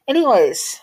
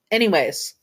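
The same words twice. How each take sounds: First: ANYWAYS pitched high and loud, then falling; "Anyways" as a big swooping transition; exaggerated segue. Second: Said in the usual way. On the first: Real, not acted. Exaggerated segue, then repeated plainly.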